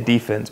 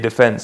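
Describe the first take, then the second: First: It is said with the American basketball stress. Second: It is said with the British football stress.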